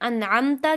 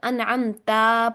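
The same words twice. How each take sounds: First: The vowel after the t is short. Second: The vowel after the t is drawn out. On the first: The speaker calls it right. "की जगह" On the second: The speaker calls it wrong. "की ता को खींचकर अनअमता पढ़ देना"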